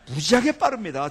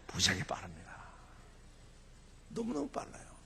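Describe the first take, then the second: First: Loud, punchy boast; emphatic public declaration. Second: Hushed stage whisper; whispered mock confidence; confidential whisper. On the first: Real, not acted. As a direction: belt it out to the crowd. Emphatic punchline about speed. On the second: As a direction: let the audience in on a secret. Letting audience in on a secret.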